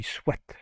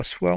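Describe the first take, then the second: First: "soit" said as swat, final t sounded; "soit" with a clear t at the end; correct pronunciation. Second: "soit" said as swa, final t silent; "soit" without the t; wrong pronunciation. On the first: Teacher correcting a learner's pronunciation, right version. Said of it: "on dit soit". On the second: Teacher correcting a learner's pronunciation, wrong version. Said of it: "on dit pas soit". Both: Shown as a demonstration.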